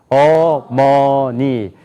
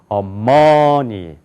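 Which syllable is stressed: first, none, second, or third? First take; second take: none; second. First: All syllables have equal pitch, loudness and length. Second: The stress is on the second syllable. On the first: "한번 한국 사람 읽어봅시다. ... 높이가 같아요. ... 크기도 같아요. ... 길이도 같아요" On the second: "두 번째 여기가 강조가 있으면"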